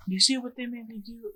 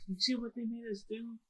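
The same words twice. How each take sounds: First: Higher, blame-shifting whine; mock-innocent Odin. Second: Higher but much softer blame-shifting; corrected Odin line, softer. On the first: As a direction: play the victim, pointing at someone else. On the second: Retold or imitated. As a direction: say it again softly, correcting the words. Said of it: "Like, no, like".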